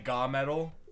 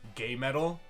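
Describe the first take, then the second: First: The first syllable has an 'ah' vowel. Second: The first syllable has an 'ay' vowel. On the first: "I guess you can say ga metal, but that just sounds weird"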